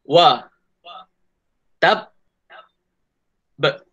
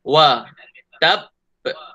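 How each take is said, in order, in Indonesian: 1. Kata itu dibaca sangat lambat, dipanjang-panjangkan. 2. Kata itu dibaca dengan kecepatan biasa. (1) "Tadi Ustaz tunjuk terlalu slow sangat. Slow version" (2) "ini bacaan biasa"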